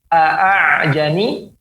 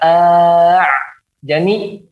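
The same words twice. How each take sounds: First: The second hamzah is a clear glottal stop. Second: The second hamzah becomes a fully lengthened vowel. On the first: "tidak dibaca tahqiq ya, tahqiqul hamzah" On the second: "atau tidak dibaca dengan alif full"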